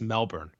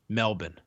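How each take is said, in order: First: It is said with a non-Australian pronunciation. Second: It is said with an Australian pronunciation. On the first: "everyone's cutting their promos on TV. It's always Melbourne" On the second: "pronounced it Melbourne. ... he's got an Australian accent"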